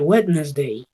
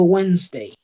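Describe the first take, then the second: First: Every letter is sounded, including the d. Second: The middle d is silent, with fewer sounds. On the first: The speaker calls it wrong. "Error común decir Wednesday ... para tratar de que suenen todas las letras" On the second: The speaker calls it right. "Yo digo Wednesday, ... W E N S, solo son las que suenan"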